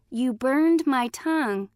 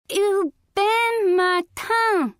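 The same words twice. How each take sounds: First: Said in the usual way. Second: High, slow "You bend my tongue" with consonants lost; burned-tongue cry. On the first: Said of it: "Granny came rushing into the room and translated". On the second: A narrator's reading. Coyote burned by chili, garbled high cry "You bend my tongue". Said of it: "cried Coyote".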